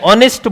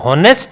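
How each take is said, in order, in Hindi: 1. शब्द सीधे एक स्वर से शुरू होता है। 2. शब्द h की आवाज़ से शुरू होता है। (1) "ऑनेस्ट बोला जाएगा" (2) "हॉनेस्ट नहीं बोला जाएगा"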